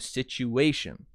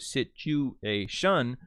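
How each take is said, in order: First: The main stress falls on the 'a' syllable. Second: The main stress falls away from the 'a' syllable. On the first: The speaker calls it right. "you go situation" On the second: The speaker calls it wrong. "you don't go situation"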